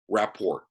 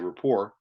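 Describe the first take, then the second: First: The final T is clearly pronounced. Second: The final T is silent. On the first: The speaker calls it wrong. "I said it wrong. That was intentional" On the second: The speaker calls it right. "the T is silent. Please say rapport"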